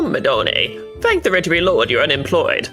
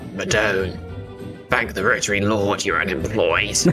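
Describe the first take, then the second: First: It is said in a put-on Italian accent. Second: It is said in the speaker's plain accent.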